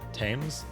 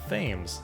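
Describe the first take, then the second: First: It begins with a plain 't' sound, like 'Tim'. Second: It begins with a 'th' sound, read as spelled. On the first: It is said the way locals say it. The speaker calls it right. "But you say Thames" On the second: It is read the way it is spelled. The speaker calls it wrong. "it looks like Thames"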